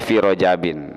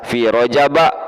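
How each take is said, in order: First: The word ends with an -in sound. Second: The word ends with a short -a sound. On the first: The word is treated as a fully declinable noun. "boleh fi rojabin" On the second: The word is treated as a diptote. "Jadi ini boleh dibaca fi rojaba"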